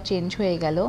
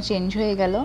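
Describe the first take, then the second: No difference in how they are said.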